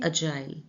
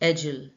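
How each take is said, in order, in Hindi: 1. यह ब्रिटिश उच्चारण में बोला गया है। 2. यह अमेरिकन उच्चारण में बोला गया है। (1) "ब्रिटिश में इसको कैसे प्रोनाउंस करते हैं" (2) "अगर अमेरिकन प्रोनाउंसिएशन करेंगे तो फिर ये है"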